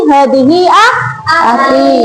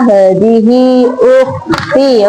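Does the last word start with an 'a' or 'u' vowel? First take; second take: a; u. First: The last word begins with an 'a' vowel. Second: The last word begins with a 'u' vowel. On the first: The speaker calls it wrong. "Jawabannya Fahri tadi" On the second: The speaker calls it right. "Yang benar adalah"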